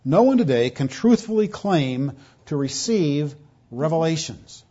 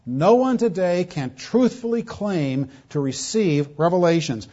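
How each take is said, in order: First: Said in the usual way. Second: Each word slowed and pressed; deliberate preacher's emphasis; slower emphatic repeat. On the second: Shown as a demonstration. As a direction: drive it home slowly, word by word. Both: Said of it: "here's where this, I'm going with this".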